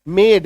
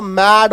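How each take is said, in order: First: मेड with a long ay sound, like made; correct pronunciation. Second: मैड with a flat short a, like mad; wrong pronunciation. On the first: Teacher models the right sound, मेड as made. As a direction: say मेड as made, never mad. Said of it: "इसका उच्चारण देखिए मेड ऐसा होता है". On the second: Teacher warns students, मैड sounds like mad. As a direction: say मैड as mad to show the mistake. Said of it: "M A D बोल देंगे तो मैड हो जाएगा". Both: Shown as a demonstration.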